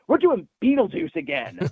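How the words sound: It sounds excited and full of fun. Making the film again is a joy. The speaker calls it right. "that's how I would spin the tone, because it's just fun"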